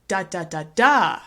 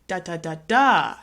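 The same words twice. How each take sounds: First: The stress is on the fourth syllable. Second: The same.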